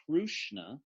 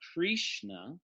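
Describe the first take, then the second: First: A 'u' vowel follows the r. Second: A clear 'i' vowel follows the r. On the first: "it's not Krushna" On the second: "it's not Krishna with an I"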